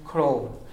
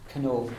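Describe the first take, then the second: First: The n after the c sounds like an r. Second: The n after the c is kept, with a vowel. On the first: This is the Connacht and Ulster pronunciation. "in Connacht they would say the same as what we are saying" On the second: This is the Munster pronunciation. "But in Munster they would say canoe"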